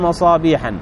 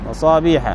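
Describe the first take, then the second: First: The word ends with an added -an sound. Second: The word ends with a plain short vowel. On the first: The speaker calls it wrong. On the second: The speaker calls it right.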